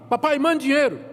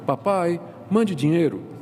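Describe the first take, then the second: First: It sounds like a blunt, demanding order. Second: It sounds like a gentle, pleading request.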